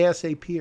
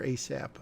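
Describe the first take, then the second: First: A S A P said letter by letter; spelled-out letters. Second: Asap run together as "AY-sap"; said as a word. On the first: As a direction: spell out A S A P as four separate letters. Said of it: "Do you say A S A P or asap". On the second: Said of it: "how would you pronounce it". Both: Shown as a demonstration.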